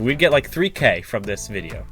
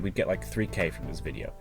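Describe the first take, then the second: First: It is spoken with lively, varied pitch. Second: It is spoken in a flat monotone. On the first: The speaker calls it right. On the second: The speaker calls it wrong.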